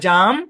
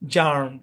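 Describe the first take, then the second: First: British accent, with no r sound. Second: American accent, with the r pronounced. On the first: "British English হবে জাম" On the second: "American English হবে কি, জার্ম"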